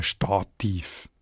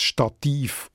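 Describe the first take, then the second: First: Stativ said as STA-tiv, accent moved to the front; stress on first syllable. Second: Stativ stressed on final -TIV; stress on second syllable. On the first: Editor guessing the future form, Stativ stressed on STA-. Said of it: "wird das Stativ auch ganz einbürgert". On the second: Editor imagining its future, today's Stativ stressed on -tiv. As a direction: keep the weight on the end of Stativ. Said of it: "hat man die latinische Betonung gelassen". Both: Shown as a demonstration.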